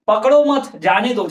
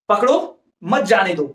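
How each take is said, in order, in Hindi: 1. विराम 'mat' के ठीक बाद आता है। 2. विराम 'pakdo' के ठीक बाद आता है। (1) "अल्प विराम जब यहां पर था तो क्या बोल रहे थे" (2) "अब बोलेंगे"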